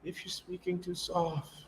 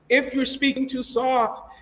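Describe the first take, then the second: First: It is spoken quietly and hard to hear. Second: It is spoken loudly and clearly. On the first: The speaker calls it wrong. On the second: The speaker calls it right.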